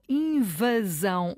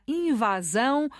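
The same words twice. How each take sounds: First: "invasão" with a closed A; slow "invasão", closed central A in "va". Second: "invasão" with a wide open A; slow "invasão", open A in "va". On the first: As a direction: say "invasão" with the "va" A reduced toward "uh". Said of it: "ou o A é fechado". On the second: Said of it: "o A é aberto ou o A é fechado". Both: Shown as a demonstration.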